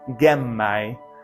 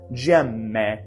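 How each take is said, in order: First: The word starts with a hard g and ends in ai. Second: The word starts with a soft g and ends in e. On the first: This is the classical pronunciation. "but G and I" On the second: This is the church pronunciation. "soft G, right? And then A E becoming E"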